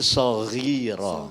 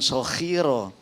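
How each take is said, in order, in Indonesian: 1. Konsonan tengah adalah bunyi gh bersuara. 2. Konsonan tengah adalah bunyi kh tak bersuara. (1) "tapi soghiro" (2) "bukan sokhiro ... lebih kepada kho"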